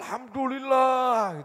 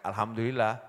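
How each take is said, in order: First: It is said with deep, heartfelt feeling. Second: It is said lightly and casually. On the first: Thanks that come from deep within the heart. "ati sak apa ya, jeroane gitu. Katut semua" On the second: An ordinary person giving routine thanks. "Alhamdulillah kita ya"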